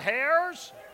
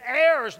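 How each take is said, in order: First: The word begins with an H sound. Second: The word begins without an H sound. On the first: The speaker calls it wrong. "not hairs" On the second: The speaker calls it right. "it's heirs, Silent H"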